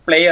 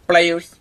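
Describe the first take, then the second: First: The word ends with an r sound. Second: The word ends with a z sound. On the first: The speaker calls it wrong. "പ്ലെയേഴ്സ് പ്ലെയർ ആകുന്നു" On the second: The speaker calls it right. "പ്ലെയേഴ്സ് പ്ലെയർ ആകുന്നു"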